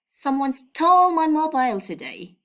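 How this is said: The word stole carries the main stress. The phone was really stolen, not misplaced. "by stressing this word, I mean stole"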